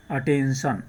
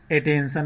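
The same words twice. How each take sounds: First: "अटेंशन" opening on a short अ, uh-TEN-shun; correct first vowel. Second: "अटेंशन" mispronounced as ay-TEN-shun; wrong first vowel. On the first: Teacher answers how we read it, short-अ demo. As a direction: model "अटेंशन" with अ, not ए, falling at the end. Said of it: "क्या पढ़ेंगे हम?". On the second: Teacher shows what cannot be said, wrong-vowel demo. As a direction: open "अटेंशन" on ए instead of a short अ. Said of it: "नहीं बोल सकते". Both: Shown as a demonstration.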